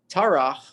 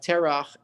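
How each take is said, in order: First: The first vowel is an 'a' sound. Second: The first vowel is an 'e' sound. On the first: The name ends a clause or verse. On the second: This is the ordinary form of the name.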